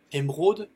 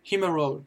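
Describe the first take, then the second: First: Said in the usual way. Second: Emerald said as "im-rol", D barely there; very light final D. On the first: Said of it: "Vous avez ensuite l'émeraude". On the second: Shown as a demonstration. Teacher recaps for learners, emerald with a very light D. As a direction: let the D of emerald almost vanish. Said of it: "prononce très légèrement le D".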